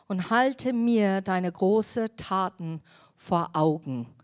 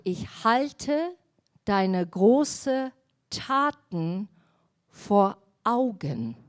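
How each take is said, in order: First: Said in the usual way. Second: Each word of "deine großen Taten vor Augen" drawn out slowly and weighted; slow emphasis. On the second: Shown as a demonstration. Preacher repeats the verse slowly to the congregation, words drawn out. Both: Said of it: "Überleg mal".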